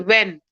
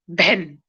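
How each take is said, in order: First: The word begins with a w sound. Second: The word begins with a b sound. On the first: The speaker calls it right. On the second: The speaker calls it wrong.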